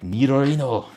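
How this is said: It is said with a put-on Asian accent.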